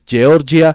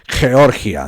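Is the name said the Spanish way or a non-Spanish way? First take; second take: non-Spanish; Spanish. First: Georgia is said with a non-Spanish pronunciation. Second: Georgia is said with the usual Spanish pronunciation. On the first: The speaker calls it right. "no es así, es Georgia" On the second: The speaker calls it wrong. "no es como los españoles le llaman Georgia"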